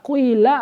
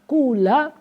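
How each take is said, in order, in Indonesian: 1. Vokal pertama adalah campuran bunyi u dan i. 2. Vokal pertama adalah bunyi u murni. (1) "atau dibaca ismam. Ismam percampuran antara dhammah dengan kas kasroh" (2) "Boleh dibaca dhammah khalis mukhlason"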